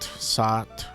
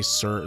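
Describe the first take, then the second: First: The vowel is an open 'ah' sound. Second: The vowel is an 'er' sound. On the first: This is how Japanese speakers would say it. "they'd probably say Sat" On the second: This is how it is said with the er sound. "It wouldn't be Surt. There's the er sound doesn't really exist in Japanese"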